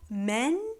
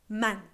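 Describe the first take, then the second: First: The vowel is said the English way. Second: The vowel is an open, plain A. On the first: The speaker calls it wrong. "with that um, inflection on the A that you have in English" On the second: The speaker calls it right. "more of an open normal A"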